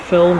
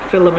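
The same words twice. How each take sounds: First: It is said with a standard English pronunciation. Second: It is said with a Scottish pronunciation. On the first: "instead of" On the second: "people just like to think it's a bit cute to say"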